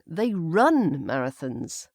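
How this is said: The word run carries the stress. They run them rather than jog or walk. "we can put the stress on the run"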